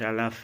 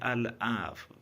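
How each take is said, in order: First: The word is rushed and clipped to a short sound. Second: The word is said slowly with all its sounds. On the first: The speaker calls it wrong. "الف الف الف الف آخرش الف میشه. الف نه، اینجوری نگید" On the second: The speaker calls it right. "من خودم وقتی میگم میگم"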